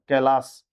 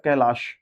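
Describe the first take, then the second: First: कैलाश ending in a plain "s"; correct s ending. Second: कैलाश ending in "sh"; wrong sh ending. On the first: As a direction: say कैलाश as "kai-laas". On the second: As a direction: say कैलाश as "kai-laash". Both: Shown as a demonstration. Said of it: "श नहीं, कैलाश होता है".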